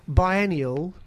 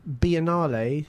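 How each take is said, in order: First: The word ends in an 'ee-ul' sound. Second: The word ends in an 'ah-lay' sound. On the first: The speaker calls it right. "I hope I've said that right" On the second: The speaker calls it wrong. "not Biennale"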